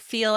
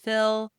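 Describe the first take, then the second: First: The vowel is a long 'ee' sound. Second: The vowel is a short 'i' sound. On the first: "we say feel as fill" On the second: "we say feel as fill"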